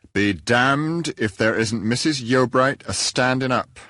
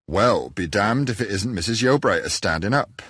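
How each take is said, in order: First: Slow, grave and louder, no relish in the curse; a severe, unsmiling repeat of the curse; passionless severity. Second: Said in the usual way. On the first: A narrator's reading. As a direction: deliver the oath with stern, joyless gravity. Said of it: "with the same passionless severity". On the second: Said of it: "I said to myself".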